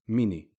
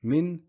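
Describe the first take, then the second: First: "mini" opened into a final short i; kasra after N. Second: "Min" closed on N; stop on the N. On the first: Teacher contrasting the two words, added i. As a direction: give "mini" two syllables. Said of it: "a kasra on the noon". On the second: Teacher contrasting the two words, stopped N. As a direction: say "Min" as one syllable, no i after. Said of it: "stop at the n sound". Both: Shown as a demonstration.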